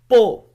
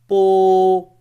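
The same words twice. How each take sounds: First: It is said with the fifth tone. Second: It is said with the first tone. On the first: "the fifth tone and the last" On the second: "the first tone"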